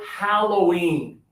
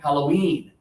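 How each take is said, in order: First: The stress is on the first syllable. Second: The stress is on the second syllable. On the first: "if we want to stress the first syllable" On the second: "sometimes you hear the second syllable stronger"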